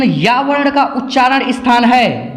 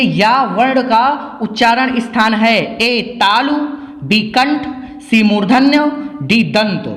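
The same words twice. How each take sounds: First: Said in the usual way. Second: Slow it down so students catch it; slow and clear. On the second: Shown as a demonstration. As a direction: read the question slowly, word by word. (धीरे और साफ़ पढ़ा हुआ प्रश्न) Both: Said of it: "ध्यान से देखिए".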